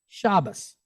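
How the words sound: It is said in an Ashkenazi accent, ending in -os.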